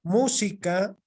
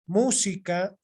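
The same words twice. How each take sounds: First: Música with the first syllable stressed, rising at the end; stressed demo. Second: Música repeated, the first syllable stressed again. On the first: Teacher showing the class where música is stressed. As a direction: lean on the start of música. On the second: Teacher repeating música for the class. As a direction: say música once more, leaning on its start. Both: Shown as a demonstration. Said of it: "así con una pequeña muestra".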